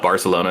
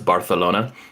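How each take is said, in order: First: The 'c' is said as a plain 's' sound. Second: The 'c' is said as a lisped 'th' sound. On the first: "it's not" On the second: "speak with like a, a lisp"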